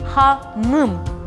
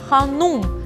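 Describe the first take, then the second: First: The second vowel is an unrounded 'y' sound. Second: The second vowel is a rounded 'u' sound. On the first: This is the Crimean Tatar form of the word. The speaker calls it right. "в крымско-татарском языке произношение ... обязательно должно ... с буквы И" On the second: This is the Russian form of the word. The speaker calls it wrong. "на русском языке мы говорим ханум, то есть с буквой У"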